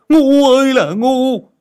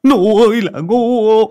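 First: Even louder, higher, slow bellow; frustrated yell. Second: Loud, drawn-out, higher yell; frustrated yell. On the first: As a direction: scream the insult again, slower. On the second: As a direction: bellow the insult slowly. Master yelling in frustration. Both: Acted.

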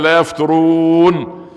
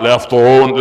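First: يفترون with a light ت, drawn out slowly. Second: يفطرون with an emphatic ط, louder; with heavy ta. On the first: Preacher teaches the crowd to say يفترون with ت. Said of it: "بالته، يعني بالتاء مش بالطاء". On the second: Preacher shows the wrong ط in يفطرون. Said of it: "مش بالطاء". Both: Shown as a demonstration.

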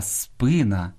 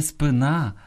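First: Спина stressed on СПИ, slow; stress on first syllable. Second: Спина stressed on НА; end-stressed спина; wrong last-syllable stress. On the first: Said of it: "Слід казати". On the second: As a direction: say спи-НА. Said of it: "найчастіше неправильно наголошуєте". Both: Shown as a demonstration.

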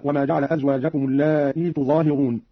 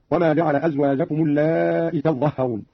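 First: Said in the usual way. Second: "اللائي" as allaa'i, long aa and short final i; "تظهرون" as tazzahharuna, doubled z and h; dropped ya. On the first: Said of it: "بحذف الياء". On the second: Shown as a demonstration. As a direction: clip the last vowel of "اللائي", double consonants in "تظهرون". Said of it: "قرأ قالون لفظ اللائي بحذف الياء".

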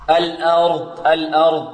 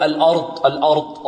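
First: "الأرض" with a thin a, then heavy r; light hamza. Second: "الأرض" with a thickened, dark opening a; heavy hamza. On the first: Teacher modelling light hamza for students, careful demo. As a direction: keep the a of "الأرض" thin before the full r. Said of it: "مرققة". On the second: Teacher imitating a common mistake, over-heavy hamza. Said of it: "البعض يفخم الهمزة". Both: Shown as a demonstration.

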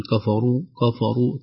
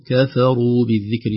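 First: كفروا said with a heavy kaf and fa; the mistaken كفروا, too heavy; wrong heavy kaf. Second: كفروا said with a light kaf and fa; correct light kaf. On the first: Teacher to students, showing a wrongly heavy كفروا. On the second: Teacher to students, modelling a light كفروا. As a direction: keep the kaf and fa of كفروا thin. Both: Shown as a demonstration. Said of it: "نحذر أيضًا من تفخيم الكاف والفاء".

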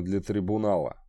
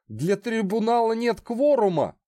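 First: Said in the usual way. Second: Panicked trapped animal. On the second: Acted. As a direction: squeal out the protest. Condemned man protests in panic.

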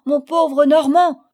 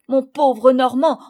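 First: Higher and louder, despairing shout; desperate louder cry. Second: Anguished cry. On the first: Father shouts after the carried-off Normand, desperate. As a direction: cry out the name as he vanishes. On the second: Father cries after his captured friend, anguished and loud. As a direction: call out to a friend being dragged off. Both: A narrator's reading. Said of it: "criait mon père".

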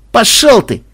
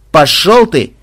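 First: Higher, louder go-to-hell; louder rude shout. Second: Rude snap. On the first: Captive shouts at his torturer, louder insult. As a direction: fling "Пошёл" higher and louder this time. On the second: Captive tells him off. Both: Acted.

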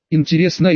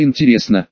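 First: Teasing, lilting lift; playful. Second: Dropped low, mock musing; playful. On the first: Acted. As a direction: toss it off playfully. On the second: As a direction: echo it in a goofy lower tone. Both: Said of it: "дурашливо повторила девица".

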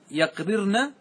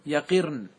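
First: يقررن said slowly as "yaqrirna"; full unreduced form. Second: يقرن said "yaqirn" with a falling end; lightened form. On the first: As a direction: sound both r's in يقررن, yaq-rir-na. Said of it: "جاز تخفيفه بحذف عينه". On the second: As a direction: say يقرن with i after the q and one r. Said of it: "بعد نقل حركتها إلى الفاء". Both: Shown as a demonstration.

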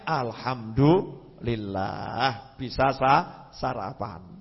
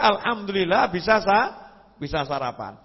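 First: Low, very slow thankful murmur; "Alhamdulillah" stretched out slow and low, gently grateful. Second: Brisk, lightly raised "Alhamdulillah"; quick content thanks, no lingering; "Alhamdulillah" said at normal pace with a lifting end; cheerful thanks. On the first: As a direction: savour each word of thanks. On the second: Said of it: "Justru dia". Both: Retold or imitated.

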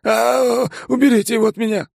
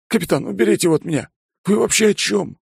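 First: Very high, fast terrified plea; terrified shriek. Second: Fast, high frantic plea; panicked plea. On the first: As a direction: scream for help in terror. Bond terrified, hiding. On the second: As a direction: beg for rescue in a hurry. Bond begging. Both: Acted.

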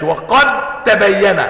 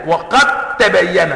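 First: "وقد تبين" with the د kept as a clear dal, slow; wrong dal reading. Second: "وقد تبين" with the د merged into a doubled ت; correct merged ta. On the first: Teacher showing the wrong dal in "وقد تبين". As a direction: say "وقد تبين" keeping the د before the ت. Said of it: "يبقى انت هنا خليتها دال". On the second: Teacher giving the correct merged "وقد تبين". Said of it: "لا". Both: Shown as a demonstration.

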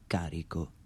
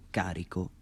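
The two takes are said the same way.

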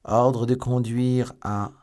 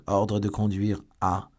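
First: Slow, high, loud official reading; reading aloud. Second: Slower official reading, steadier; rereading aloud. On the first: Lord de Winter reading the order, slow and loud. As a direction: read the order out formally. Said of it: "il lut". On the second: Lord de Winter rereading the order, slow and measured. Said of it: "Je reprends donc". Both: A narrator's reading.

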